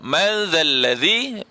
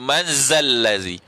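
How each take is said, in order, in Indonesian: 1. Bunyi z dibuat dengan lidah di antara gigi. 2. Bunyi z dibuat dengan lidah di belakang gigi. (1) "Ini daripada lidah bertemu dengan gigi atas dan gigi bawah" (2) "Jangan bunyi manzallazi... dia panggil zain"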